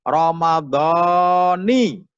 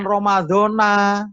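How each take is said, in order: First: The word ends with an 'i' vowel. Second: The word ends with an 'a' vowel. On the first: The speaker calls it right. "tapi yang betul adalah" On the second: The speaker calls it wrong. "Bukan Ramadana"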